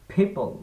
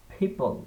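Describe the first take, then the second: First: The first consonant has a puff of air. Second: The same.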